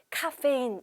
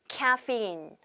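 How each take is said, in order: First: It is said with Korean loanword syllables. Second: It is said with English sounds and stress. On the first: The speaker calls it wrong. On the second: The speaker calls it right.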